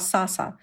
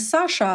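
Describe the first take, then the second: First: The second consonant is an 's' sound. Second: The second consonant is a 'sh' sound. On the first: The speaker calls it wrong. "а «Саса»" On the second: The speaker calls it right. "это будет не «Саша»"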